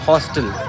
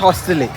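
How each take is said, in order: First: The word ends on the l sound. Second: The word ends with an added vowel sound. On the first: The speaker calls it right. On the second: The speaker calls it wrong.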